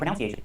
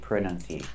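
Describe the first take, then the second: First: The second syllable lacks a short uh vowel. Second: The second syllable has a short uh vowel. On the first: The speaker calls it wrong. "Don't say pronunciation" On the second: The speaker calls it right. "With a short uh sound"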